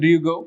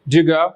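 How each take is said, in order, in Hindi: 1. Do और you दो अलग शब्दों की तरह बोले जाते हैं। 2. Do और you मिलकर एक छोटी आवाज़ बन जाते हैं।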